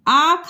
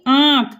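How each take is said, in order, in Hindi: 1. स्वर सादा है, इसमें नाक की आवाज़ नहीं है। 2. स्वर अनुनासिक है, नाक से बोला जाता है। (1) "आख होता है" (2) "चंद्र बिंदु लगा तो आप इसे कैसे बोलेंगे?"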